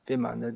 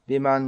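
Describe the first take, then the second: First: It begins with a V sound, three syllables. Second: It begins with a B sound, two syllables. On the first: This is the Sanskrit form of the word. "there's a Sanskrit word" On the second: This is the Bengali form of the word. "the Bengali pronunciation"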